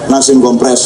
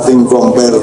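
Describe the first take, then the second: First: The second word sounds like 'compress'. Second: The second word sounds like 'compare'. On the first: The speaker calls it wrong. "karena susah mengucapkan compare" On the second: The speaker calls it right. "judul lagu dari barat namanya Nothing Compare to You"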